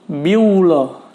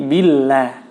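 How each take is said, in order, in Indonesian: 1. Bunyi l-nya tebal dan berat. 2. Bunyi l-nya tipis dan ringan. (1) "jangan dibaca biullah" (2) "Maka dibaca tipis atau tarqiq"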